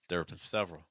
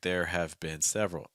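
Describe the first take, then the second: First: It is contracted into one syllable. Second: An extra vowel makes it two syllables. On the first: The speaker calls it right. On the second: The speaker calls it wrong.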